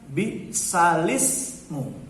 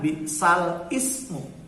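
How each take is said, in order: First: The words run together without a glottal stop. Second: A glottal stop separates 'bi'sal' and 'ismu'. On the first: The speaker calls it right. "dibacanya bi'salismu" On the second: The speaker calls it wrong. "bacanya bukan bi'sal ismu"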